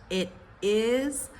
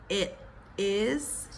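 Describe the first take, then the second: No difference in how they are said.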